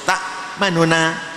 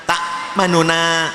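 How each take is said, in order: Both takes have the same delivery.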